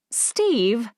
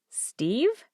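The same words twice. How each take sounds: First: It is said in a stern tone. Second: It is said as a questioning ask.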